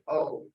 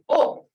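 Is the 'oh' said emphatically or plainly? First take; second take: plain; emphatic. First: The sound is said plainly, without force. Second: The sound is said forcefully, with attitude. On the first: The speaker calls it wrong. "don't just say" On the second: The speaker calls it right. "you got to put an attitude into this sound"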